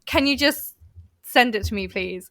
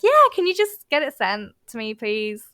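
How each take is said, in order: First: Plain, curt request dropping away at the end; curt text voice. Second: Nice phone voice. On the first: Showing how a text reads to a coworker, curt text voice. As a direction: read it like a terse text message. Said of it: "It sounds way worse". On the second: Showing how the same request sounds by phone, nice phone voice. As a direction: soften the ask with a cheery phone lilt. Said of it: "I'm a lot nicer on the phone". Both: Shown as a demonstration.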